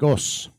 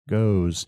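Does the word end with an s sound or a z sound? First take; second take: s; z. First: It ends with a voiceless s sound. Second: It ends with a voiced z sound. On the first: The speaker calls it wrong. "Not goes, not goes, right? Because you're saying G-O-U-S" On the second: The speaker calls it right. "it is easier to say diphthongs with a Z than with a S"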